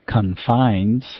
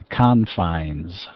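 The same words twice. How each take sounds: First: The stress is on the second syllable. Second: The stress is on the first syllable. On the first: It is used as a verb. "Confines as the verb form. Stress was on the F" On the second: It is used as a noun. "Stress is on the first syllable"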